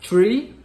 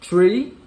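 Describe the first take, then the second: No difference in how they are said.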